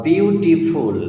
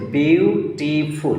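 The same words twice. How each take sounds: First: Said in the usual way. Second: beautiful very slowly, in three beats; three separate syllables. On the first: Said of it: "একটাই word". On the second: Shown as a demonstration. Teacher proves three syllables, slowly broken apart. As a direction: draw out and separate each part of beautiful. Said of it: "but syllable তিনটে".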